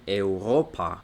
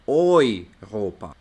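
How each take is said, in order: First: The first syllable is said as separate 'eh-oo'. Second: The first syllable is said as 'oy'. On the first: The speaker calls it wrong. "los alemanes no dicen Europa" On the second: The speaker calls it right. "sino que dicen Europa. ¿Por qué? Porque tiene E U"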